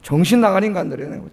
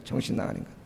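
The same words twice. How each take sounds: First: Said in the usual way. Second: Under-the-breath whispered repeat; whispered mutter. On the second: Shown as a demonstration. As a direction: whisper it as a scornful aside. (혼잣말처럼 속삭이는 비아냥)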